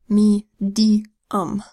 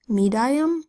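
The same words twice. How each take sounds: First: The middle syllable has a long 'ee' vowel. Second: The middle syllable has a long 'eye' vowel. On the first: The speaker calls it right. "we change the sound of I to the long E sound" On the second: The speaker calls it wrong. "makes a long I sound ... does that sound right?"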